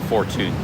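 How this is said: It is said with a Thai-style pronunciation. "They call it fortune"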